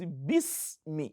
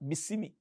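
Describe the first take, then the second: First: The s carries no vowel after it. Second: The s is followed by a short i vowel. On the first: The speaker calls it right. "It is sukun" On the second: The speaker calls it wrong. "Some people read as bismillah"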